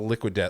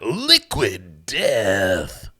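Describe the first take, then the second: First: It is said plainly, in an ordinary casual voice. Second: It is said loudly, in an intense dramatic voice. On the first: The speaker calls it wrong. "you can't just say, oh" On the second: The speaker calls it right. "No. No. You got"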